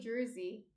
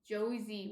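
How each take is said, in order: First: The R sound is clearly pronounced. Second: The R sound is dropped from the word. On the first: The speaker calls it right. "like a hard R" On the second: The speaker calls it wrong. "We don't say it like that"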